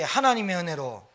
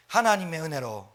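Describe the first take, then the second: First: 하나님의 은혜로 said louder and fuller; a bigger call of 하나님의 은혜로. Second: Said in the usual way. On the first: Shown as a demonstration. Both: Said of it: "크게".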